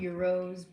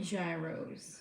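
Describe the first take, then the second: First: The word begins with a 'y' sound. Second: The word begins with a 'j' sound. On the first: This is how Greek speakers say it. The speaker calls it right. "I know they're supposed to be called euros" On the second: This is how New Yorkers say it. The speaker calls it wrong. "We say we say gyros"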